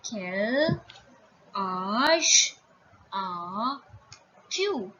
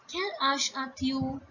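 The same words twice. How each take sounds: First: "Quel ... âge ... as ... tu", each drawn out; word by word. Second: Said in the usual way. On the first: Shown as a demonstration. Teacher introducing the informal age question, word by word. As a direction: lengthen each word, pause between. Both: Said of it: "You will say".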